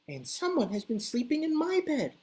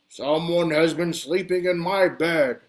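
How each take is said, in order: First: It is said in a medium, middle-pitched voice. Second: It is said in a big, deep, booming voice.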